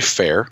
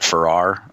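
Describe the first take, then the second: First: The name is said with one syllable. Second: The name is said with two syllables. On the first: The speaker calls it right. "but it's actually Fair" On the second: The speaker calls it wrong. "I pronounced it Farrar"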